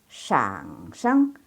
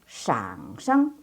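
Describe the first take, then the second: Both takes have the same delivery.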